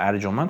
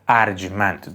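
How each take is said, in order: First: It uses the everyday colloquial pronunciation of the word. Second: It uses the classical literary pronunciation of the word. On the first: The speaker calls it wrong. "ارجمند غلطه" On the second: The speaker calls it right. "ارجمند درسته"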